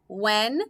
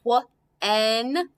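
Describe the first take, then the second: First: Said in the usual way. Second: "wh-en" stretched slowly into its sounds; sounded out. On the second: Shown as a demonstration. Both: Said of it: "you could sound out".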